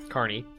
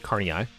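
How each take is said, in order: First: The ending is one merged vowel sound. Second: The two final vowels are said one after another.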